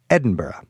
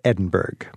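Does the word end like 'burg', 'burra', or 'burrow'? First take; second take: burrow; burg. First: The ending is pronounced like 'burrow'. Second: The ending is pronounced like 'burg'. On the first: The speaker calls it right. "But I usually settle on simply Edinburgh" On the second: The speaker calls it wrong. "it's definitely not Edinburgh"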